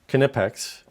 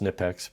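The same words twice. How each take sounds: First: The name is said the German way. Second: The name is said the American way. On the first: The speaker calls it right. "that is how you pronounce it" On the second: The speaker calls it wrong. "We here in the United States tend to change everything, and so better known as"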